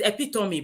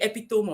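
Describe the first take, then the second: First: It ends with a clear 'mee' sound. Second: It ends like the word 'some'. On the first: The speaker calls it right. "the word epitome is epitome" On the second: The speaker calls it wrong. "some people will call it epitome"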